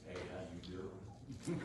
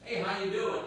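First: It is said in a lingering, flirtatious way. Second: It is said as a quick, casual greeting.

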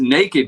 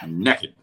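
First: The first vowel sounds like the one in 'name'. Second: The first vowel sounds like the one in 'neck'. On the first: The speaker calls it right. "Naked because there's an A in it" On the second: The speaker calls it wrong. "you pronounce it as N-E-C-K-E-D. Naked. Like neck it"

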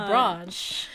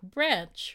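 First: It is said with a South Australian vowel. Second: It is said with a Sydney/Melbourne vowel.

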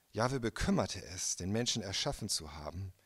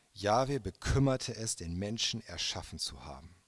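The two takes are said the same way.

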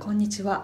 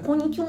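First: It is said in a normal voice. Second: It is said with pursed, pouty duck lips.

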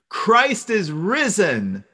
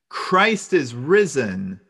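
First: It is said at the loudest level. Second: It is said a little louder.

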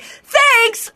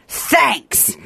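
First: The word sounds bright and cheerful. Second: The word sounds flat and curt. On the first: The writer is friendly and warm. The speaker calls it right. "that's why girls are like" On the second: The writer seems cold or annoyed. The speaker calls it wrong. "I don't want it to sound like"

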